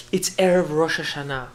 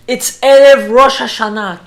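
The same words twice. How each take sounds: First: Said in the usual way. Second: Loud, raised-pitch appeal; insistent plea. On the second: Retold or imitated. Rabbi asks Gestapo to let him in, insistent plea. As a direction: press the guard, raising your voice on the holiday. Repeats plea to guard with force.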